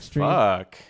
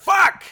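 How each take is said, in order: First: The word sounds pleased and appreciative. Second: The word sounds pained, like the speaker is hurt. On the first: The speaker is enjoying something. "You can say it like you like it" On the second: The speaker is in pain. "you can say it like you're hurt"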